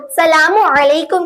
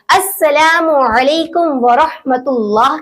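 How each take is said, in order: First: "सलामु" begun without the opening as; shortened salam. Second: "अस्सलामु" with doubled s and long drawn vowels; correct full salam. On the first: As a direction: say "सलामु अलैकुम" wrongly, dropping the article. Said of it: "तो यह गलत तरीका है". ("सलामु" बिना शुरुआती "अस्" के) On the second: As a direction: recite "अस्सलामु अलैकुम" carefully, opening on as. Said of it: "ऐसे नहीं कहना है". ("अस्सलामु" पूरा, खींचकर साफ़) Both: Shown as a demonstration.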